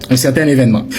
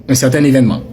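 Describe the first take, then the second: Both takes have the same delivery.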